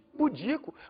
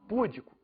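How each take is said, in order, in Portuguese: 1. A tônica está na segunda sílaba. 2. A tônica está na primeira sílaba. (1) "em vez de pudico" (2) "poderiam falar púdico"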